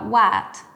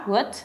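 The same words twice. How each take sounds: First: The vowel is a lengthened open A sound. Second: The vowel is a neutral schwa sound. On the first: "o por una A más alargada" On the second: "en American se puede o reemplazar por la schwa"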